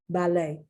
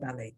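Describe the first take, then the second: First: The final T sound is silent. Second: The final T sound is pronounced. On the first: The speaker calls it right. "I've never heard the T pronounced" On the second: The speaker calls it wrong. "I've never heard ballet"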